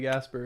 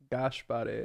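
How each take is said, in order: First: The name has two syllables. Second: The name has three syllables. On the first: The speaker calls it wrong. "my name isn't actually Gasper" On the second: The speaker calls it right. "That's how you pronounce it"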